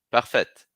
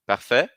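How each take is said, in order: First: "Parfaite" with a clear final T; final T sounded. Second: "Parfait" ending open, no T; silent final T. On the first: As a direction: snap the T of "Parfaite". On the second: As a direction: leave off the T in "Parfait". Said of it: "não pronuncio". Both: Shown as a demonstration.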